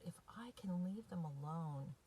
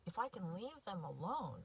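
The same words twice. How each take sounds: First: Emotional. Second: Said in the usual way. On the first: Real, not acted. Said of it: "I'm a little emotional". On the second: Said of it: "again, I'm sorry".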